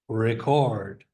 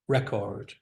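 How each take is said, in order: First: The stress is on the second syllable. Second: The stress is on the first syllable. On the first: It is used as a verb. "Second syllable is the verb" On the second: It is used as a noun. "The noun"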